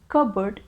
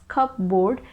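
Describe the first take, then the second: First: "Cupboard" as kub-erd, no P sound; correct pronunciation. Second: "cupboard" said cup-board, P and full board; the wrong spelled-out "cupboard"; wrong pronunciation. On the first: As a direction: correct "Cupboard", like bird at the end. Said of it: "Cupboard is the correct pronunciation". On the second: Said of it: "We don't pronounce it as cupboard". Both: Shown as a demonstration.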